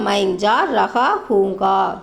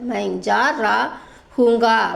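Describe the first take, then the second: First: The middle word is said in full as 'raha'. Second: The middle word is shortened to 'ra'.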